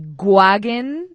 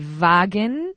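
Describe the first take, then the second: First: It begins with a hard g sound. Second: It begins with a v or b-like sound. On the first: "no suena a G" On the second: "no suena a V"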